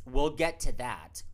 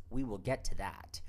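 First: Slow, louder "we'll get to that"; emphatic aside. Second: "we will get to that" with "will" uncontracted; measured repeat. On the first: Host breaking off the plot summary for listeners, emphatic. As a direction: stretch out "we'll get to that" firmly. Aside promising to explain later. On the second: Host promising listeners an explanation later, measured. Same aside repeated more evenly. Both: Real, not acted.

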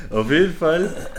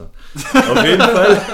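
First: Said in the usual way. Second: Much higher, louder and slow, laughing through it. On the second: Real, not acted. Retelling the odd casting story, laughing. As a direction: dissolve into laughter on the words.

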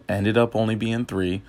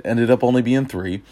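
First: Hiccuping mid-sentence; words broken by a hiccup. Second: Said in the usual way. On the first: Real, not acted. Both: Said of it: "got the hiccups".

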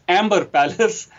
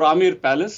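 First: "Amber" said like the English colour word, with the b sounded; "Amber" with a clear m-b in the middle; anglicised mispronunciation. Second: "Amer" said AH-mair, with no b; "Amer" with a plain m and an open second syllable; correct local pronunciation. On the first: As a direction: say "Amber Palace" as spelled, AM-ber. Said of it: "very incorrect way of pronouncing it". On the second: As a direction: say "Amer Palace" the Indian way, AH-mair. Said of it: "but it's pronounced as". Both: Shown as a demonstration.

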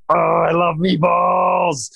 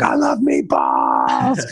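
First: Much higher, slow, drawn-out cry of delight; fired-up excitement. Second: Lower, slow, savoring murmur of "I love meatballs"; hunched over the plate. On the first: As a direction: gush over the meatballs like a kid. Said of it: "I was so fired up about these meatballs". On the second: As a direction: relish each word while leaning over the food. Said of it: "legit down over the plate". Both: Retold or imitated.

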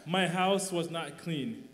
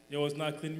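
First: Each word slowed and pressed, louder; slow emphatic admission. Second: Said in the usual way. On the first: Real, not acted. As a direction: spell it out slowly, word by word. Admitting his past, slowly.

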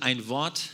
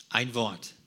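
First: Said in the usual way. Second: „Ein“ deutlich betont, „Wort“ fällt ab; Betonung auf EIN. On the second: Shown as a demonstration. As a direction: das Wort „Ein“ hervorheben. (Nachdruck auf „Ein“) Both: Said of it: "Und die Betonung liegt auch auf ein Wort".

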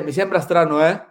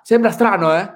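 First: Said in the usual way. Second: Italian with imitated Swedish accent, a little higher and louder; put-on Swedish accent, raised pitch; Ibra. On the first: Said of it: "pero si le digo como lo dice Ibra". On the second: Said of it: "si le digo como lo dice Ibra".

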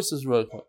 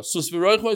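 First: The answer, lower and softer; soft echo. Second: The call, said plainly and full; leader's call. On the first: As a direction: repeat it back quietly. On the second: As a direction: start the verse. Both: Shown as a demonstration. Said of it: "they repeat".

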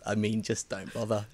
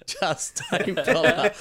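First: Said in the usual way. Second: Slow, laughing dismissal, pitched up. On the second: Real, not acted. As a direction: laugh it out slowly. Repeats while laughing.

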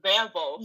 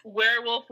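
First: "werewolf" with a German V; German-accented "werewolf". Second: Said in the usual way. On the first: Shown as a demonstration. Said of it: "It's literally just werewolf with a German accent". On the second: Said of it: "werewolf with a German accent".

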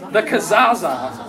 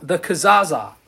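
First: "Kazaza" drawn out slowly with a hooting ring; said with some hoot. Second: Said in the usual way. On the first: Shown as a demonstration. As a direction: hoot the word "Kazaza" long and slow. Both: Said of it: "you gotta say it with the, some hoot".

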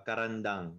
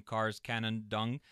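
First: Karandang with a clear rolled-ish r and open final a; correct pronunciation. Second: Cars Canandong drawn out slowly with a rising question; unsure pronunciation. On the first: Shown as a demonstration. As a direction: say Karandang crisply as the native name. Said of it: "can you say it at least one time". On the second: Real, not acted. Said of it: "I feel like I'm pronouncing that wr".

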